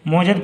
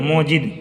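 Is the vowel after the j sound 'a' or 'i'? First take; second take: a; i. First: The vowel after the j is 'a'. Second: The vowel after the j is 'i'. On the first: The speaker calls it wrong. "मौजद पढ़ेंगे तो गलत हो जाएगा।" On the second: The speaker calls it right. "जीम के नीचे जेर पढ़िएगा"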